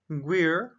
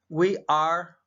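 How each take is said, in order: First: It is said as one contracted syllable. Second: It is said as two separate full words.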